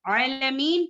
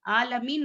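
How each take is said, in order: First: आलमीन opened with a throat ayn; ayn pronounced properly. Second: आलमीन opened with a plain vowel; ayn lost. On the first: Teacher correcting the class's reading, correct throat ayn. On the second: Teacher showing the reading to avoid, ayn dropped. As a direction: say आलमीन with a simple aa, no throat catch. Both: Shown as a demonstration. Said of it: "आलमीन नहीं है".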